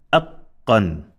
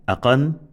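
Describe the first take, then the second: First: "aqqan" with the q doubled, a held catch before "qan"; emphasized consonant. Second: "aqan" with a quick single q; no emphasis. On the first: Teacher modelling emphasis, "aqqan" with doubled q. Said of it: "When there is emphasis". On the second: Teacher modelling no emphasis, "aqan" with undoubled q. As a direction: pass lightly over the q in "aqan". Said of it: "no emphasis". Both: Shown as a demonstration.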